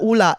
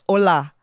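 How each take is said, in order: First: The first vowel sounds like oo. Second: The first vowel sounds like oh. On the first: The speaker calls it wrong. "not ula" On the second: The speaker calls it right. "it's hola"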